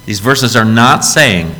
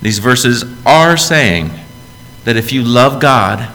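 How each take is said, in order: First: Slow, with "not" hit hard and falling; deliberate denial, "not" punched; stress on not. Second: Very slow, "are" drawn out and stressed; firm affirmation, "are" emphasised. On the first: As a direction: lean on "not" in "These verses are not saying". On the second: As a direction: lean on "are" in "These verses are saying". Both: Shown as a demonstration. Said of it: "It's not what they're saying".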